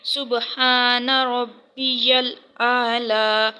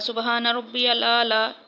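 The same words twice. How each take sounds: First: The phrase is said slowly and carefully. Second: The phrase is rushed out quickly. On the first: The speaker calls it right. "आपने इसको ठीक तरीके से पढ़ना है" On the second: The speaker calls it wrong. "जल्दी जल्दी"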